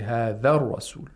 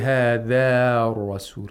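First: The final vowel of the first word is short. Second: The final vowel of the first word is long. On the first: The speaker calls it right. "We say هذا الرسول" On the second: The speaker calls it wrong. "we don't say هذا الرسول"

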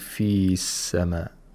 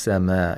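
First: The vowel in fi is held long before sama. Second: The vowel in fi is short, linked to sama. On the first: The speaker calls it wrong. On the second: The speaker calls it right.

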